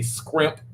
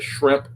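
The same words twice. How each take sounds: First: "scrimp" with skr in place of shr; "scrimp" as the old Southern way of saying shrimp; Southern dialect pronunciation. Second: Said in the usual way. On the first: Shown as a demonstration. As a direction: start "scrimp" with a hard s-k-r cluster. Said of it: "I used to say scrimp instead of shrimp". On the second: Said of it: "instead of shrimp".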